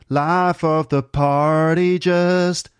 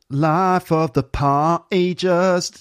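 First: Party is said with an American rounded R. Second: Party is said with a London glottal stop. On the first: The speaker calls it right. "It has to be" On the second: The speaker calls it wrong. "It doesn't sound right"

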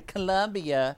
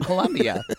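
First: The name is pronounced the English way. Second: The name is pronounced the Spanish way. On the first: The speaker calls it wrong. "I wouldn't say Colombia" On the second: The speaker calls it right. "I would say Colombia because I wouldn't want to sound like an idiot in Colombia"

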